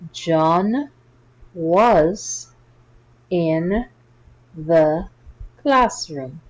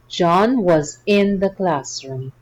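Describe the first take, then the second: First: The sentence is read at a slow pace. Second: The sentence is read at a faster pace. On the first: "Slowly at first" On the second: "Let's read it faster now"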